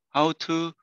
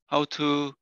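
No difference in how they are said.

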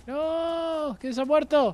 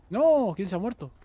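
First: Very high, drawn-out "no" wail; wailing dismay. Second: Raised, louder cry of dismay. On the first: Player laments a fallen teammate, high dramatic wail. Repeats dismay, much higher. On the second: Player learns someone has died, dismayed outcry. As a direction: call out in dismay. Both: Real, not acted.

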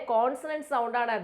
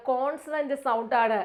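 No difference in how they are said.

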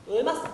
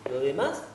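First: Jumped much higher on "demás"; sudden higher rising "lo demás"; rising lift. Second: Said in the usual way. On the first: Acted. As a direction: lift "demás" up as the idea arrives. Repeats phrase, searching.

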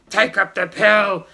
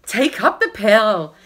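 First: Put-on gruffer, grumpy young man. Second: Said in the usual way. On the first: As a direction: grumble it like a grumpy husband. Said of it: "a bit more grumpy". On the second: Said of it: "that's supposed to be a bit more grumpy".

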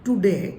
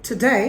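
First: "today" as too-de, no glide; wrong pronunciation. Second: "today" with weak first vowel, gliding ay; correct pronunciation. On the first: Teacher showing what not to say, mispronounced. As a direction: say "today" with full oo and short e. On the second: Teacher modelling today for students, correct pronunciation. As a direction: say "today" as tuh-DAY. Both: Shown as a demonstration. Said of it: "not today".

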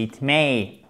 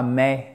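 First: "it may" with the ei diphthong; correct pronunciation. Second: "may" said as French /mɛ/ with no diphthong; flat French "may" as a mock mistake; wrong pronunciation. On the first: Teacher to learners, models the correct "may" diphtong. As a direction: glide the vowel of "may" into ei. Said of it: "C'est la même diphtongue". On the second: Teacher to learners, plays the wrong "may" vowel. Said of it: "et non pas may". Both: Shown as a demonstration.

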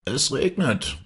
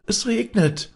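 First: Comfortable village mayor. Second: Put-on very high, loud children's call. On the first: Village mayor at his window, greeting the couple contentedly. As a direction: say it contentedly, moderately high. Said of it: "sagte der Vetter Schulze, der behaglich". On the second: Children running in the street, calling out high. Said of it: "riefen die Kinder". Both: A narrator's reading.

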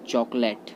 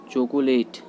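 First: चॉकलेट as two syllables, 'chok-let'; चॉकलेट with short 'let' ending; correct pronunciation. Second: चॉकलेट as three syllables, 'cho-ko-late'; चॉकलेट spelled out as 'CHO-ko-LAYT'; common mispronunciation. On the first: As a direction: say चॉकलेट dropping the middle o. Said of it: "right होता है". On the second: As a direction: say चॉकलेट with a middle o and long 'late'. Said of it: "जो कि गलत होता है". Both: Shown as a demonstration.

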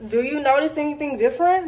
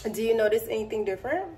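First: Said in the usual way. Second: Soft and quick, coaxing viewers to look; quiet playful tease; hushed, hurried, teasing; hushed teasing question. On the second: Pretend. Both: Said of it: "teasing viewers, repeated".

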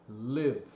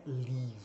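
First: "live" with a short tight vowel, close to "lev"; short closed vowel. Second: "leave" with a long open ee, the wrong word here; soft, stretch the ee of "leave"; open long vowel. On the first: Teacher contrasting "live" with the wrong long vowel. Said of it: "ela é sempre fechado e curto". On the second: Teacher showing the wrong vowel that changes the word. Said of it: "Se você abrir, vai virar outra palavra". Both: Shown as a demonstration.

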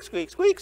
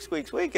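First: High, rising squeak, squeak, like a rusty spring; squeaky car noise. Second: Squeak, squeak high and much softer, fading away; softer squeaky car noise. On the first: Pastor mimicking his old car's squeak to the congregation, high squeaky voice. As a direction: make the squeak climb up high. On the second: Pastor mimicking his old car's squeak fading, high soft squeak. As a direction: let the squeak die off quietly. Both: Retold or imitated.

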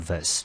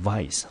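First: "vice" said as a weak "vəs"; reduced second syllable. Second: "vice" said with a full long-i, "vise"; full standalone vowel. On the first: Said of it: "第二个音节呢念成". (把 vice 轻读成 vəs) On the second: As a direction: say "vice" to rhyme with "ice". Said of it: "我知道可以念成vice". (把 vice 念成完整的 ai 音) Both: Shown as a demonstration.

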